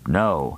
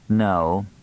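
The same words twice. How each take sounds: First: The pitch falls on the word. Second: The pitch stays level on the word. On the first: "With a downward inflection" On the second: "And with no inflection"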